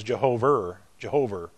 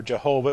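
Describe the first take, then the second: First: Put-on Boston-accented "Jehover" with an R on the end; imitating a Boston accent on "Jehover", final vowel turned to R. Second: Said in the usual way. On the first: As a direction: say "Jehover" Boston-style, ending in an "er" sound. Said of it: "he had the Harvard Boston accent". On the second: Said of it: "it was never Jehovah".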